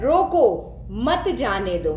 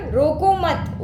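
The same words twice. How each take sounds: First: रोको, then a clear break before मत जाने दो; pause after रोको. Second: रोको मत run together as one command; no break between रोको and मत; pause after मत. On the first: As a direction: set रोको apart, then run मत जाने दो together. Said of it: "रोको के यहाँ पे मैंने कॉमा लगा दिया". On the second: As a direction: join रोको straight onto मत, then stop. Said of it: "अब यही अल्प विराम में यहाँ से लेकर के यहाँ कर दूँ". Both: Shown as a demonstration.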